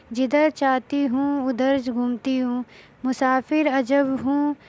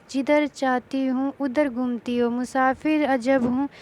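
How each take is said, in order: The two takes are said the same way.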